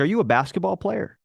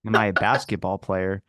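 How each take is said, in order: First: Hotel clerk asking, voice raised higher; a bright, curious clerk asking; curious clerk question. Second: Echoing her question back in disbelief, lower; incredulous echo. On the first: Clerk quizzing the tall-looking guest, higher curious voice. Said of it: "she was like". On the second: Guest repeating clerk's question, baffled lower echo. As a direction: repeat it back like it's absurd. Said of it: "What do you mean?". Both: Retold or imitated.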